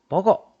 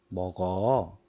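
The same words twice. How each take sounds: First: It is said as a forceful command. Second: It is said as a calm permission. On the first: It orders someone to eat. "명령형도 되죠" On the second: It allows someone to eat. "허락하는 표현도 되죠"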